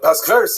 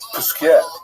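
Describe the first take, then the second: First: The name is said in a Lithuanian yeshiva style. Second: The name is said in a Provençal French style. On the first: This is how the name is traditionally said in yeshivas. The speaker calls it wrong. "in our yeshiva ... somewhere in Lita ... it's not the real correct pronunciation" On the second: This is how the town's name is really said. The speaker calls it right. "So it's, it's Puskier"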